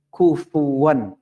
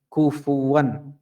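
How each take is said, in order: The two takes are said the same way.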